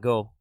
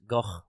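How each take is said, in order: First: The name has a plain sound with no throatiness. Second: The name has a guttural, throaty sound in it. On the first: "The generally accepted pronunciation in English" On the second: "the Dutch pronunciation is Gogh with a little bit of guttural in there"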